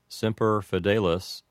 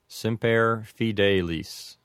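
First: It is said with American pronunciation and short vowels. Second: It is said with Latin pronunciation and long vowels. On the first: "a typical Americanized pronunciation might sound like this" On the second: "For a correct Latin pronunciation"

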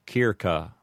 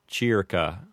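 First: Both C's are hard K sounds. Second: It uses the ecclesiastical Latin pronunciation. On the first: "with a correct Latin pronunciation, would sound like" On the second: "With an ecclesiastical pronunciation"

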